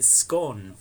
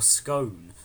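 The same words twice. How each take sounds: First: "scone" said to rhyme with "gone"; short-o scone. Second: "scone" said to rhyme with "bone"; long-o scone. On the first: Posing the British debate, "scone" rhyming with "gone". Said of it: "One of the eternal debates". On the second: Offering the disputed version, "scone" rhyming with "bone". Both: Shown as a demonstration.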